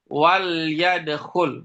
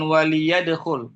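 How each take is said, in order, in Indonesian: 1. Huruf L tidak diikuti vokal. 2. Huruf L diikuti vokal 'i'. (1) "Wal wal yadkhul" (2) "bukan wali yadkhul"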